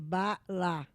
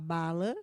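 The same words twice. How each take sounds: First: The word is split with a break between syllables. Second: The word is said smoothly as one unit. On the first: The speaker calls it wrong. "do que bala" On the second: The speaker calls it right. "é mais bonito falar bala"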